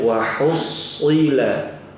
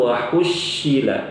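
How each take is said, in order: First: The s sound is heavy and emphatic. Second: The s sound is pronounced as sh. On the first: The speaker calls it right. "Jadi bacanya wahusila" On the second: The speaker calls it wrong. "wahushila diganti shin"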